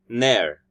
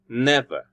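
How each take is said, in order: First: The middle v sound is dropped. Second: The middle v sound is fully pronounced. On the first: "in a normal speech, we'll say" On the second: "the word never"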